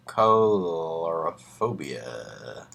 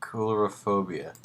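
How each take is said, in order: First: Colorophobia said as color-o-phobia, very slow and unsure; mispronounced. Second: Coulrophobia said koo-luh-ro-FOE-bee-uh; correct pronunciation. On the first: Real, not acted. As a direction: sound out Colorophobia like the word color. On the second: Shown as a demonstration. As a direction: repeat Coulrophobia carefully with koo at the start. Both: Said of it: "Let's find out how to say that".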